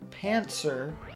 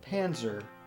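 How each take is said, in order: First: The middle sound is an n followed by ts. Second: The middle sound is an n followed by z. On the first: "say Pantser instead of Panzer" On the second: "Panzer is with a Z"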